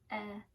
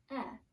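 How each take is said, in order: First: The vowel is a short eh sound. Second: The vowel is a short eh sound.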